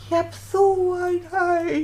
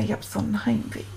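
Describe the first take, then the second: First: Higher, wailing homesick cry; breaking into tears. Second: Quick, soft confession of homesickness; quiet homesick. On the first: Homesick boy breaks down crying in front of Paul, wailing. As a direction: let the voice crack into a wail. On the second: Homesick boy quietly admits his homesickness to Paul, hushed. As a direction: say it fast and small, holding back tears. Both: Retold or imitated.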